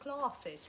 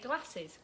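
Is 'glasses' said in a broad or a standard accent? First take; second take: standard; broad. First: The word is said without the broad regional accent. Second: The word is said in a broad regional accent. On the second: "got a bit of a broad accent, so I say"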